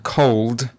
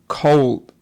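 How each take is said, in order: First: The final d is fully released. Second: The final d is replaced by a glottal stop. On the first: The speaker calls it right. "rather than cold" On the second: The speaker calls it wrong. "She said things like cold drink"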